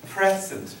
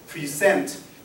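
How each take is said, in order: First: The stress is on the first syllable. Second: The stress is on the second syllable.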